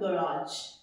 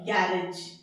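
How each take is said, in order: First: The word is said like ga-raaj. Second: The word is said like gair-ej. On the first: The speaker calls it right. "ये सीधा है गराज" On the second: The speaker calls it wrong. "यही बोलते हैं ना"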